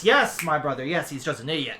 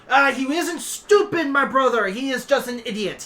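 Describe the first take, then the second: First: Agreeing dragon head. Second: Emphatic dragon head. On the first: Second head echoes his brother, subdued agreement. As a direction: agree mildly, trailing down. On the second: Dragon head corrects his brother about Reiki, high and insistent. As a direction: correct him with raised, insistent voice. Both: Acted.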